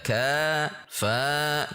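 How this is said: The syllables sway with a rising pitch. The speaker calls it wrong. "tidak boleh mengayun, tidak boleh naik intonasinya. Tidak ka fa"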